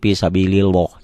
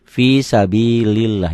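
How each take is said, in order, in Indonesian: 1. Bunyi L pada Allah terdengar tebal dan berat. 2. Bunyi L pada Allah terdengar tipis dan ringan. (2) "Tipis. Tarkik"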